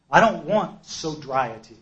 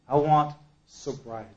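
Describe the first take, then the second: First: DON'T pressed hard, said slowly; stress on DON'T. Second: "want" gets the weight, falling tune; stress on WANT. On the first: Speaker tells group what he didn't want, stressing don't. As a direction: lean hard on "don't", slow and heavy. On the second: Speaker corrects himself, stressing want. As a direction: land firmly on "want". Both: Shown as a demonstration.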